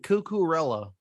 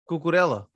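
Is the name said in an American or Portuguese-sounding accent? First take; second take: American; Portuguese. First: It is said in an American accent. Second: The L sounds Portuguese. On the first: "like an American" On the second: "the way you're doing that L is Portuguese"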